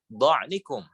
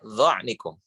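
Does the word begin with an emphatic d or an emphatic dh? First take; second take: emphatic d; emphatic dh. First: It begins with an emphatic d sound. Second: It begins with an emphatic dh sound. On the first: The speaker calls it wrong. "jangan sampai dibaca dha'nikum" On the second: The speaker calls it right. "tapi dha'nikum"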